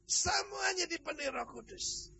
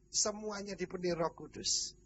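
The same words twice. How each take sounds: First: High exclamation, sliding down through the phrase; emphatic proclamation. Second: Said in the usual way. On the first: Real, not acted. Preacher stressing that all four hundred were filled, emphatic proclamation. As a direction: repeat it as a ringing, high-pitched proclamation.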